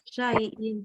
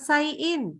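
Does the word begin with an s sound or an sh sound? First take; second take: sh; s. First: The word begins with an sh sound. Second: The word begins with a plain s sound. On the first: The speaker calls it right. "tapi sya" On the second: The speaker calls it wrong. "Bukan sayin"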